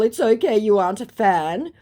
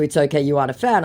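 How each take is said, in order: First: High, loud put-on lilt; mock impostor voice. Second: Said in the usual way. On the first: Impostor replying to her in chat, high mock voice. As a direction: voice the fake, rising at the end.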